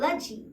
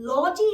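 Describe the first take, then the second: First: The vowel in logy is a reduced schwa. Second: The vowel in logy is a full 'o'. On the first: The speaker calls it right. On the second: The speaker calls it wrong. "लॉजी नहीं"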